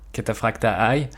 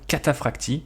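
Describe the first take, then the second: First: The word ends with an 'eye' sound. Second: The word ends with an 'ee' sound. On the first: The speaker calls it wrong. "que les Américains prononcent parfois" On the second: The speaker calls it right. "je pense que Cataphractii sonne un peu mieux"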